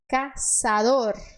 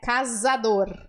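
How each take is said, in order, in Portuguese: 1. A consoante do meio é um S sibilante. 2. A consoante do meio é um Z de zumbido. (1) "a letra Z no espanhol, ela tem som de S" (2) "Aqui nós diríamos casador"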